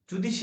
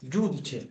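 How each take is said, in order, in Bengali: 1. দ্বিতীয় ব্যঞ্জনটি 'sh' এর মতো শোনায়। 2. দ্বিতীয় ব্যঞ্জনটি 'ch' এর মতো শোনায়। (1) "জুদিশি না" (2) "জুদিছে কি বলে"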